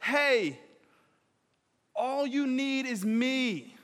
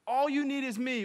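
First: Tender slow. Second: Said in the usual way. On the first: Shown as a demonstration. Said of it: "he uses it as a moment". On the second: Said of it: "he says".

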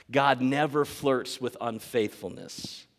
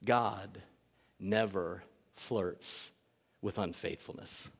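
First: "God never flirts" said firmly and slowly; slow, weighty stress opening on "God never"; firm restatement. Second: Low, hushed and very slow; grave, deliberate lowered voice; solemn statement. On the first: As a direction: lean steadily on "God never flirts with unfaithfulness". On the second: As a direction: let each word land softly, with pauses. Solemn first statement to congregation. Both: Real, not acted.

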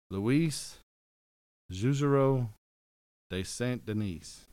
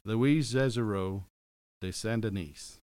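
First: Slow, careful attempt at "Louis Juzereau de Saint-Denis" in French; careful French name. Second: Slower, louder retry of "Louis Juzereau" then "de Saint-Denis"; second try, French name. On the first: Podcast host to listener, effortful French pronunciation. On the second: Host retrying a French name for his wife, careful French. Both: Shown as a demonstration. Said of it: "I'm gonna say it one more time".

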